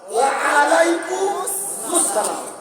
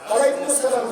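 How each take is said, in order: First: Wa and alaikum are said as separate words. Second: Wa and alaikum are merged into one word. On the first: The speaker calls it right. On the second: The speaker calls it wrong.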